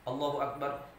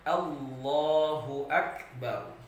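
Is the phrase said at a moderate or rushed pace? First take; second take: rushed; moderate. First: The phrase is said quickly with shortened vowels. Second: The phrase is said at a measured, moderate pace. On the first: The speaker calls it wrong. "jangan sampai kita pendekkan" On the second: The speaker calls it right.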